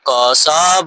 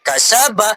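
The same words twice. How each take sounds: First: The word is said slowly with drawn-out vowels. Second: The word is said quickly with short vowels. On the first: The speaker calls it wrong. "अगर कोई ऐसे बोले कसब तो ये गलत हो जाएगा" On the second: The speaker calls it right. "जल्दी जल्दी बोलेंगे"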